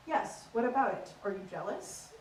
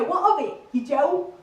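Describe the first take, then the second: First: Restrained, prim received pronunciation; understated posh translation, dropping softer; posh English accent. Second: Loud, confrontational Essex lad; higher, louder, affronted Essex accent. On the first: Comic translating the challenge, in restrained posh English. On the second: Essex lad squaring up to mate, in a loud Essex accent. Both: Acted. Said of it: "average conversation goes a little bit like this".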